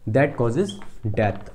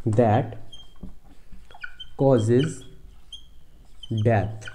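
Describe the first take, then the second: First: Said in the usual way. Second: Long pauses between that, causes and death; isolated words, death falling low; word-by-word dictation. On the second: Shown as a demonstration. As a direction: dictate each word on its own, as if writing it. Teacher dictating while writing.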